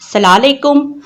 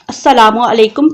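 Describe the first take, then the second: First: The greeting is shortened with syllables dropped. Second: Every syllable of the greeting is pronounced fully. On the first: May you be cursed. The speaker calls it wrong. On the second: Peace be upon you. The speaker calls it right.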